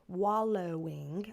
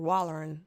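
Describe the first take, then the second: First: The word ends in a clear 'owing' sound. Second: The word ends in an 'er' sound. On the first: "That's the proper way to say it" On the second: "here in the South"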